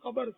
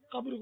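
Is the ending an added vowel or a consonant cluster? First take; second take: added vowel; consonant cluster. First: An 'a' vowel splits the final consonants. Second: The final consonants are said together without a vowel. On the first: "یہ پنجابی ہوں گے... زبر پڑتے ہیں" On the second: "ساکین ہوتا ہے وہاں زبر پڑتے ہیں"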